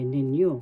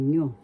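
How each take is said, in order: First: The word is said in full, two syllables. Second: The word is shortened to one syllable. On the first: "so you say ninyo" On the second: "to shorten it, abbreviate, you say nyo"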